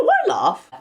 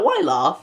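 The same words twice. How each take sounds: First: Higher-pitched, indignant Why laugh; squeaky retort; high mock question. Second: Laughing through the question; chuckling as she asks; amused, giggling question. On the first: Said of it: "I was like". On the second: Retold or imitated. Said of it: "my mate started laughing".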